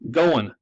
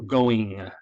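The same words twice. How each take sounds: First: A sound is dropped from the word. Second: Every sound in the word is pronounced. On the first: The speaker calls it wrong. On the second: The speaker calls it right.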